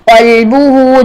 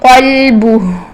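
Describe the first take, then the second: First: The word ends with a final short vowel. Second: The word ends on a bare consonant. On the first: The word is read on without stopping. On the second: The reader stops on this word.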